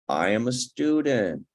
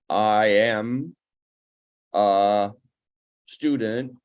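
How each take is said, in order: First: It is said as one smooth group. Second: It is broken by a pause midway. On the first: The speaker calls it right. "is correct" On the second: The speaker calls it wrong. "is not"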